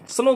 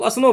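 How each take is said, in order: First: The word starts directly with the s sound. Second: An extra vowel comes before the s sound. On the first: The speaker calls it right. "स्नो बोलते हो" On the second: The speaker calls it wrong. "बर्फ को आप लोग असनो बोलते हो? नहीं ना"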